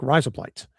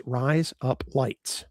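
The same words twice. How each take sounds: First: "rise up lights" run together like one word; fast, run together. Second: RISE, UP, LIGHTS said slowly, word by word; slow, separated words. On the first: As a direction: say "rise up lights" quickly, no spaces between words. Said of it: "say it together real fast, like there's no spaces". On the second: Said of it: "you say the words". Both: Shown as a demonstration.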